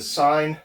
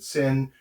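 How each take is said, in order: First: The vowel is long, like in 'fine'. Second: The vowel is short, like in 'fin'. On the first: "Some people pronounce the sine" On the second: "some people pronounce it sin"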